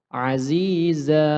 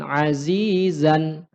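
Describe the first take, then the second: First: The word ends in a long a vowel. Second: The word ends in a short a plus n. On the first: "kalau kita membaca secara waqaf, maka dia berubah menjadi panjang. Panjangnya dua harokat" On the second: "Atau misalkan azizan"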